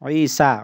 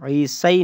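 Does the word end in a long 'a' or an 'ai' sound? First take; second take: long a; ai. First: The word ends in a long 'a' sound. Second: The word ends in an 'ai' sound. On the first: The speaker calls it right. "या को अलिफ से बदल कर पढ़ रहे हैं" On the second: The speaker calls it wrong. "ईसई नहीं पढ़ रहे हैं"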